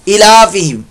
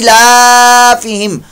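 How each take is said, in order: First: The first vowel is cut short. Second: The first vowel is held long. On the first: The speaker calls it wrong. "सिर्फ जेर लगा देते हैं ... ये गलत है" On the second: The speaker calls it right. "लिहाजा ई को लंबा करें"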